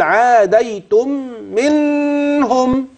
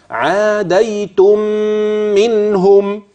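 First: منهم pitched high, ghunna on the wrong meem; غنة في غير موضعها; wrong ghunna place. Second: عاديتم منهم slow, nasalize the joined meem; غنة عند وصل عاديتم منهم; correct ghunna. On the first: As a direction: show the error in عاديتم منهم. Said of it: "بيلتبس عليه مكان الغنة". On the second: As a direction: merge the meems with a ghunna. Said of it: "الغنة في الميم الثانية". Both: Shown as a demonstration.

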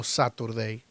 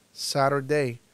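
First: Saturday with a crisp t, "sa-tur-dei"; clear-t variant. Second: Saturday with the t as a tap, "sa-r-dei"; tapped-t variant. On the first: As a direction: sound the t in Saturday. (Saturday con la t marcada, "sáturdei") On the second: (Saturday con t suave, como "sárdei") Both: Shown as a demonstration. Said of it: "También puedes decir Saturday".

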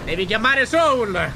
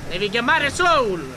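First: Drawn-out loud call of the name; loud slow call. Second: Drawn-out loud call again; loud slow call. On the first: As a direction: stretch it out and call loudly. Urging partner to call Soul. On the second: Repeats the call to Soul. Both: Acted.

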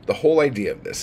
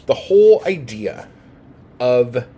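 First: Said in the usual way. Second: Irritated teacher bursting out; pissed-off emphasis. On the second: Real, not acted. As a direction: hammer the point home out of real annoyance. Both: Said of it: "but I'm fucking pissed off right now".

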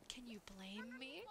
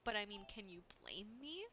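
First: Slow whisper, no voice; whispered aside. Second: Said in the usual way. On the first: Shown as a demonstration. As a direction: murmur it slowly as a secret aside. Repeated as a whisper.

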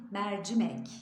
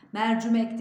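First: "mercimek" with an open first E and clear i; the right way, "mercimek"; correct pronunciation. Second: "Mercimek" said as "mercumek" with a u; the common mistake, "mercumek"; wrong pronunciation. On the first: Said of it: "Oradaki E açık". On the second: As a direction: turn the i of "Mercimek" into u. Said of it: "E'yi açıyoruz". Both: Shown as a demonstration.

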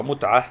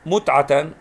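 First: متعة read "mut'ah" with silent t; pausal ending. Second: متعة read "mut'atan", louder; tanween ending. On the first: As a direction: close متعة on "ah", no tanween. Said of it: "تاء مربوطة متعة". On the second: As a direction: sound the final "tan" of متعة. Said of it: "يوجد عليها تنوين فتح". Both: Shown as a demonstration.

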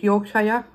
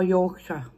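First: Yorkshire said as "York-shy-er"; Yorkshire with a two-part "shy-er" ending; full -shire ending. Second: Yorkshire said as "York-shuh"; Yorkshire with a short, weak last syllable; reduced -shire ending. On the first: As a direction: give Yorkshire a full SHIRE, rhyming with fire. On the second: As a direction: shrink the end of Yorkshire to "shuh". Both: Shown as a demonstration. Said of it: "How do you say it".

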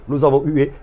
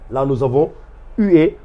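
First: Said in the usual way. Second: Teacher lands hard on hué after a pause; stress on hué. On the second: Shown as a demonstration. Teacher showing pupils the sound hué, stressed. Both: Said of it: "Je vais le faire ici pour permettre aux internautes de bien saisir".

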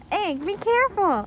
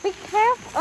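First: High, bright cautioning voice; mock warning. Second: High cautioning voice again; sing-song warning, pitched up; mock warning. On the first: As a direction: warn her in a high voice. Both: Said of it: "When she tells you to be careful".

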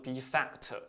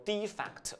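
First: Defect with stress on the second syllable, de-FECT; verb stress. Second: Defect with stress on the first syllable, DE-fect; noun stress. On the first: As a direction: say defect as a verb, punching FECT and keeping de light. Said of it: "此重音在第二个音节". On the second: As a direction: say defect as a noun, punching DE and keeping fect light. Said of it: "它是读作叫做defect". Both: Shown as a demonstration.

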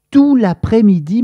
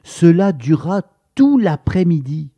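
First: "Tout l'après-midi" said high and loud, stressing "Tout"; "Tout" punched with a rising tune; emphatic repeat. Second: Said in the usual way. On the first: A narrator's reading. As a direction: hammer home how long it lasted.

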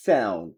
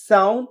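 First: Low American "sound" with AE-oo; American accent. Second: British "sound" with AH-oo, rising; British accent. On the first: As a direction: drop "sound" as SAE-oon. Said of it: "আমেরিকানরা অ্যাও বলে". (American উচ্চারণে) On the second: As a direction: lift "sound" as SAH-oon. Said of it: "ব্রিটিশরা আও বলে". (British উচ্চারণে) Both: Shown as a demonstration.

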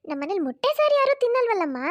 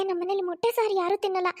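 First: Higher, louder elder woman scolding lightly; mother-in-law protesting, raised voice; objecting mother-in-law. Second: Said in the usual way. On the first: Acted. (ಸ್ವಲ್ಪ ಜೋರಾಗಿ ಆಕ್ಷೇಪಿಸುವ ಅತ್ತೆ)

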